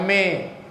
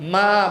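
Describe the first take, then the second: First: The vowel is tilted toward 'e'. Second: The vowel is a clear open 'a'. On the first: The speaker calls it wrong. "Ma bukan me" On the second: The speaker calls it right. "Ma bukan me"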